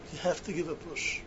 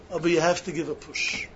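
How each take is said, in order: First: Echoed much softer, under the breath; quiet repeat. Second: Said in the usual way. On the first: Shown as a demonstration. Preacher urging students quietly to push themselves. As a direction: drop the voice and let it sink in.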